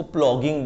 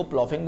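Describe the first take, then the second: First: "प्लॉगिंग", the gh pronounced as g. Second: "प्लॉफिंग", the gh pronounced as f. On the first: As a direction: say "प्लॉगिंग" with a hard g in the middle. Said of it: "कुछ लोग इसको प्लॉगिंग बोलते हैं". ("प्लॉगिंग" में बीच में ग की आवाज़) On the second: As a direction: say "प्लॉफिंग" with an f sound in the middle. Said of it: "मैं इसको प्लॉफिंग बोलता हूँ". ("प्लॉफिंग" में बीच में फ़ की आवाज़) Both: Shown as a demonstration.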